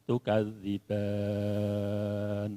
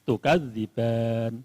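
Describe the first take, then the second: First: The last vowel is held for six counts. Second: The last vowel is held for two counts. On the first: "Tiga alifnya" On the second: "satu alif"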